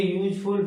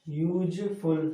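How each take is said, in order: First: Said in the usual way. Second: यूजफुल very slow, the opening "yu" stretched; sounding out. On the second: Shown as a demonstration. Teacher shows students which sound starts it, यूजफुल stretched very slowly. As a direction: draw out यूजफुल sound by sound from a long "yuuj" to "ful". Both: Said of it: "लेकिन किसका उच्चारण है".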